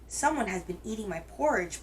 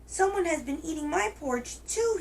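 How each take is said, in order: First: It is said in a big, deep voice. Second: It is said in a tiny, little voice.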